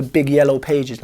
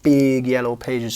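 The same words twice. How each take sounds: First: Said in the usual way. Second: "big" drawn out long for size; stress on big. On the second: Real, not acted. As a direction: stretch the word "big" slowly, then "yellow pages". Repeats it to show the size.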